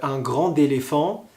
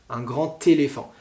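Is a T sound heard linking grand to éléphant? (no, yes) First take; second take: no; yes. First: Grand does not link with a T sound. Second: Grand links to éléphant with a T sound. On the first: The speaker calls it wrong. "C'est très dangereux si vous dites euh" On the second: The speaker calls it right. "vous entendez T"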